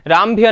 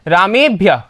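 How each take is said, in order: First: A short 'a' comes before 'bhya'. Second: An 'e' comes before 'bhya'. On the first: The speaker calls it wrong. "रामभ्य नहीं होता" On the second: The speaker calls it right.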